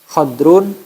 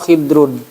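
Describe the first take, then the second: First: The first vowel is an open a sound. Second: The first vowel is a close i sound. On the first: "kha-nya dibaca fathah" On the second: "atau dibaca kasroh"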